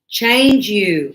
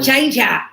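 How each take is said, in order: First: The second word ends in a full, clear vowel. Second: The second word ends in a reduced, weak vowel. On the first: The speaker calls it right. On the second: The speaker calls it wrong. "Not change ya"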